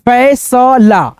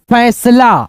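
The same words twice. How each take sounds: First: फैसला very slowly split as फै, स, ला; drawn-out teaching version of फैसला; syllable-by-syllable reading. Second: Said in the usual way. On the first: Shown as a demonstration. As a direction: sound out each piece of फैसला. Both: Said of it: "कैसे उच्चारण करना है".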